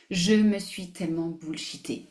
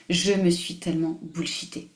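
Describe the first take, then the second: No difference in how they are said.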